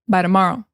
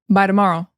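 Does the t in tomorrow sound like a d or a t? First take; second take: d; d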